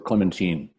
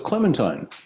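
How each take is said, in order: First: The name is pronounced the French way. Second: The name is pronounced the English way.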